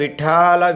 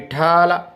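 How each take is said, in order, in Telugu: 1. మధ్య అక్షరం పొడవుగా, ఒత్తుగా ఉంది. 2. మధ్య అక్షరం పొడవుగా, ఒత్తుగా ఉంది.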